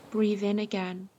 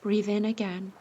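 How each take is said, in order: Both takes have the same delivery.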